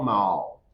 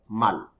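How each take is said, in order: First: The vowel is long and soft. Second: The vowel is short and strong. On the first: The speaker calls it wrong. "no mal" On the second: The speaker calls it right. "but mal"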